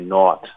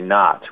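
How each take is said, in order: First: It is said in a different, non-Inland North accent. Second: It is said in an Inland North accent. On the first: This is the pronunciation rejected as standard. The speaker calls it wrong. "We're not going to say naught" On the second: This is the pronunciation chosen as standard. The speaker calls it right. "We're going to say not"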